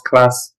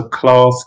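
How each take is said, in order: First: Said in the usual way. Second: London "class" with a long "ah"; London accent. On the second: Shown as a demonstration. Contrasting two pronunciations for students, London accent. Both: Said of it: "difference between class and class".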